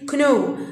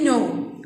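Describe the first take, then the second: First: A k sound is said before the n. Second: The word starts with the n sound. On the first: The speaker calls it wrong. "I don't say kno" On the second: The speaker calls it right. "I don't say the letter K. I say no"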